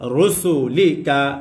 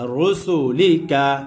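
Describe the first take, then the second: Both takes have the same delivery.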